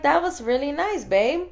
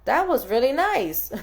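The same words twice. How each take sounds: First: Higher, gushing playful compliment; gushing higher sweet praise. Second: Said in the usual way. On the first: Retold or imitated. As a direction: gush over him like a delighted wife.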